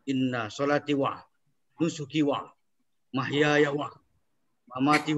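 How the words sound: Each 'wa' joins the word before, then a pause. The speaker calls it wrong. "Kalau di belakang gitu jadinya tuh"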